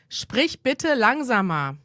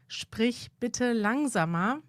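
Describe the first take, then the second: First: It sounds curt and commanding. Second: It sounds softer and more courteous. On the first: "Das ist auch unhöflich" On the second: "Ein bisschen höflicher"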